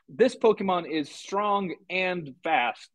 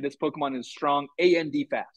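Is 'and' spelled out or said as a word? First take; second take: word; spelled out. First: The word 'and' is said as one normal word. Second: The word 'and' is spelled out letter by letter. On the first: This is how a person would say it. The speaker calls it right. "instead of saying like" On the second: This suggests a computer voice is speaking. The speaker calls it wrong. "it'll spell out conjunctions"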